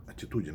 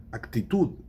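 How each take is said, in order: First: Said in the usual way. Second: Actitude said as Spanish ac-ti-TUD; Spanish pronunciation. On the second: Shown as a demonstration. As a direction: sound the k in Actitude and end on a hard d. Spanish word against Portuguese one.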